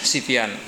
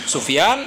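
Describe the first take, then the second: First: The first vowel is i. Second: The first vowel is u. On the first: "Bitathlif ini bisa dibaca dengan tiga harakat" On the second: "Bitathlif ini bisa dibaca dengan tiga harakat"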